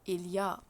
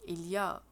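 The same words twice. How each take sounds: Both takes have the same delivery.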